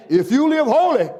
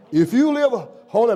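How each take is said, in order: First: Louder, laughing "if you live holy"; higher, laughing retake of "holy". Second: Said in the usual way. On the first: Real, not acted. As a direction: repeat it through a laugh.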